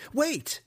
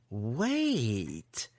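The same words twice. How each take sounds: First: Very high, sudden plea; panicked high yelp of a word; urgent cry. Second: Drawn-out, sly wait; mock-pondering sarcasm; sarcastic. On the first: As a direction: cry out to stop him. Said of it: "cried Alton". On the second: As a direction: stretch it out with an evil smile. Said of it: "an evil smile of sarcasm". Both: A narrator's reading.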